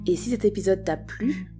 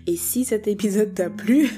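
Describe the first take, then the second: First: The words are loosely articulated and run together. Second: The words are carefully and distinctly articulated. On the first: The speaker calls it wrong. "Attends, il faut que j'articule" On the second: The speaker calls it right. "il faut que j'articule"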